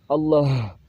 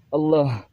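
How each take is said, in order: No difference in how they are said.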